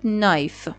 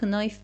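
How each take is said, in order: First: The word begins with an n sound, no k. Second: The word begins with a pronounced k sound. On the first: The speaker calls it right. "پس این شد نایف" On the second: The speaker calls it wrong. "ممکنه اینو کنایف بخونم برای بار اول"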